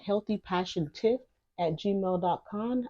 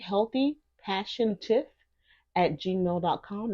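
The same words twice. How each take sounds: First: It is said at a normal speaking pace. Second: It is said slowly and deliberately.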